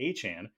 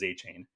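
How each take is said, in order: First: The second syllable sounds like 'con'. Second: The second syllable sounds like 'chain'. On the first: This is how he says his name now. "he changed it to, to A-Chan" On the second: This is how he said his name before. "he pronounced it as A-Chain"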